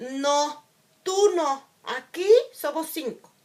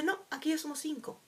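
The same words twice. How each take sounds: First: Louder and higher, a cutting no; harsh rejection. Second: Said in the usual way. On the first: Retold or imitated. The wounded child hears classmates' refusal as harsh, loud rejection. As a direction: hit it like a door slammed in your face. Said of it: "tu herida te hará leer la información como". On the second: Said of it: "lo que hacen es decirte".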